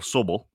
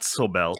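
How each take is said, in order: First: The name is said with a plain English pronunciation. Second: The name is said with a French-sounding pronunciation. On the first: The speaker calls it right. "My guest is Rachel Sobel" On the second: The speaker calls it wrong. "not Sobel"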